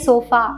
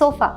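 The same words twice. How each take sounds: First: The final vowel is a full, clear a. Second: The final vowel is a short, relaxed uh. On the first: The speaker calls it wrong. "we don't say sofa" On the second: The speaker calls it right. "we say sofa. So அந்த அ sound வந்து உங்களுக்கு ஏல வரும்"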